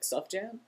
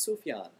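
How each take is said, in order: First: The middle sound is a 'j' sound. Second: The middle sound is a 'y' sound. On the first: The speaker calls it wrong. "that doesn't sound cool at all" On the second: The speaker calls it right. "No, it's Sufyan"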